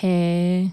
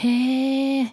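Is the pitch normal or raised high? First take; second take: normal; raised high. First: It is said at a normal pitch. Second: It is said with a raised, higher pitch.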